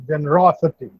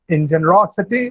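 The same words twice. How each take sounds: First: Generosity, with the third syllable from the end stressed. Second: Said in the usual way. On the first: Shown as a demonstration. Teacher modelling generosity for the class, stress on ro. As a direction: lean on the ro in generosity. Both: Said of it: "the stress is on raw".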